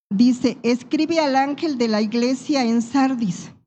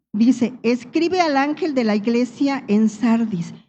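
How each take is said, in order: Both takes have the same delivery.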